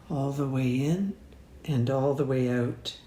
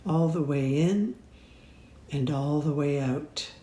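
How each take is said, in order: Both takes have the same delivery.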